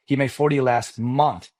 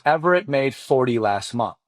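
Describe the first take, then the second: First: "forty" said slowly and pressed, a patient correction; stress on forty. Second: Said in the usual way. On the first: Retold or imitated. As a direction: lean on "forty" to set him straight. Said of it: "No, no, no".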